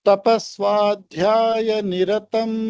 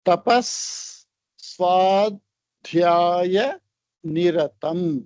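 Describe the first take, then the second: First: The words run together without pauses. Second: Each word is spoken separately with pauses. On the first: "வாசிச்சுட்டு" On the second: "தனித்தனியா வார்த்தையை சொல்லி"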